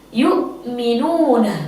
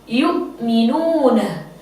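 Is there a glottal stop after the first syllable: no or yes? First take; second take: yes; yes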